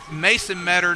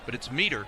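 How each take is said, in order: First: The first vowel sounds like the one in 'met'. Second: The first vowel sounds like the one in 'meet'. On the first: The speaker calls it wrong. "I was pronouncing it like J J Metters" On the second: The speaker calls it right. "Meter is the pronunciation"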